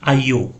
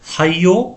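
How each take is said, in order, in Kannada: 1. ಈ ಪದ ನೇರವಾಗಿ ಸ್ವರದಿಂದ ಆರಂಭವಾಗುತ್ತದೆ. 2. ಈ ಪದ h ಶಬ್ದದಿಂದ ಆರಂಭವಾಗುತ್ತದೆ.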